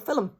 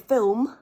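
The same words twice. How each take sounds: First: It is two syllables with a clear L. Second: It is one syllable with a dark L. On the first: "stick a vowel before the last syllable" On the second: "swallow the L at the back of the mouth and go straight into an M"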